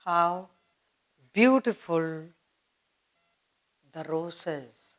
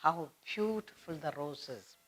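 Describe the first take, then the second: First: Softly admiring, dropping to a hush on "roses". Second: Soft admiring tone. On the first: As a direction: breathe out the words "How beautiful the roses" in wonder. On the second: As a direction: savour "How beautiful the roses" softly. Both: Shown as a demonstration. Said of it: "You're admiring the rose".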